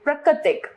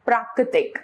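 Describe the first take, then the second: First: प्राकृतिक with a short first vowel; wrong pronunciation. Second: Said in the usual way. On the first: Shown as a demonstration. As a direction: say प्राकृतिक as pruh-kri-tik. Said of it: "अशुद्ध रूप". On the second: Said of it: "इसका शुद्ध है".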